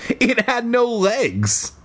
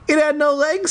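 First: High, drawn-out insistence; telling oneself. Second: Very high, quicker playful repeat; squeaky repeat. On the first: A narrator's reading. Kid reassuring himself about the escaped creature, high insistence. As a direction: stretch it out high, convincing yourself. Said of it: "I told myself". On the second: Pretend. Reader repeating the line to the cat, very high. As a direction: pitch it way up and lift the end.

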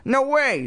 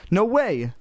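First: Very high squeaky puppet; high-pitched ventriloquist's refusal; Slappy's dummy voice. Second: Higher, mildly insistent refusal; lightly firm girl's refusal. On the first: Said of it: "she made Slappy say". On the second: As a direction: insist in your own voice, pitched up. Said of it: "Lindy insisted". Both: A narrator's reading.

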